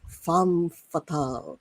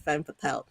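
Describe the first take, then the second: First: It is pronounced the French way. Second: It is pronounced the American way. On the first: "the French pronunciation" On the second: "the Americanized version"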